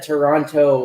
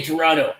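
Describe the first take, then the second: First: Toronto with the second T sounded; second T pronounced. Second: Toronto with the second T silent, like "Torono"; second T dropped. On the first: Shown as a demonstration. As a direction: say "Toronto" with a clear T before the final o. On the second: Retold or imitated. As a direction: say "Toronto" without the T after n. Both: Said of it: "say the second T".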